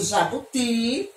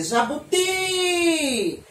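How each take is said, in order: First: Said in the usual way. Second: "jabuti" with a long, high final TI; calling out the word. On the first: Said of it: "se eu for pronunciar a palavra jabuti gritando". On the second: Shown as a demonstration. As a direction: draw out the last syllable of "jabuti" like a call. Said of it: "a palavra jabuti gritando ela". ("jabuti" gritado, demorando no TI final)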